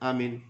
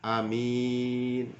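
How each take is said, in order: First: Both vowels are said short. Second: The first vowel is short, the second long. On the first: "pendek-pendek semua" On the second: "alifnya pendek, mim min mimnya panjang"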